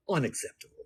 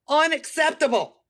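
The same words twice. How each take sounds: First: Soft, dropped unacceptable; quiet flat verdict. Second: Higher, louder Unacceptable with full outrage; loud outraged verdict. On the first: Quiet flat verdict on a broken nail. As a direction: say unacceptable under your breath, flat. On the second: Outraged over a broken fingernail, loud. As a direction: throw Unacceptable out with indignation. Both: Shown as a demonstration.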